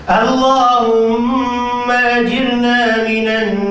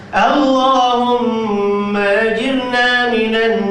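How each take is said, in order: No difference in how they are said.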